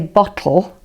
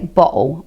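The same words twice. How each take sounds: First: The t is a clear tongue sound. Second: The t is a glottal stop. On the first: It sounds like trying to talk properly. "which you would say if you were trying to talk properly in inverted commas" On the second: It sounds like casual London speech. "You'd say bottle"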